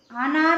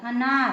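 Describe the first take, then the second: First: अनार said wrongly with a long open 'aa' at the start; wrong long vowel. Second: अनार said correctly with a short 'uh' at the start. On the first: Teacher shows students the wrong way, long 'aa'. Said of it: "अनार नहीं बोला जाता". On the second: Teacher gives students the right way, short 'a'. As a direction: say अनार as 'anaar', short first vowel. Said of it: "अ अनार का होता है". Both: Shown as a demonstration.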